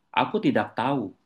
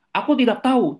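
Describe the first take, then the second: First: Said in the usual way. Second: High, loud defiant retort; exclamation with raised intonation. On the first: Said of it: "Saudara dikasih tanda seru di sini". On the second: Retold or imitated. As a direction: fire it back at a much higher pitch, like an exclamation mark. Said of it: "tanda seru itu kan pasti intonasinya meninggi".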